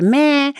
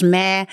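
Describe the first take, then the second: First: "Meh" in a raised little voice; high little voice. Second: Said in the usual way. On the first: Shown as a demonstration. Reader showing how the word is pronounced, high little voice. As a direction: say "Meh" higher, as a small squeak. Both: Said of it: "met een beetje een hoog stemmetje".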